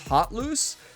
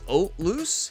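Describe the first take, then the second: First: The opening H sound is pronounced. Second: The opening H sound is silent. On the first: "the English pronunciation, according to Google" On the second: "in French, where that name originates, uh, it's actually the H is silent"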